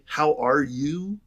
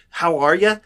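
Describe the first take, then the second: First: It is said slowly and sincerely, with real interest. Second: It is said quickly and casually, without real interest.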